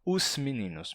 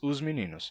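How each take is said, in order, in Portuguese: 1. O s de 'os' é um som de chiado. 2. O s de 'os' é um som de zumbido, como z. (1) "A gente não diz" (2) "ele fica com som de Z"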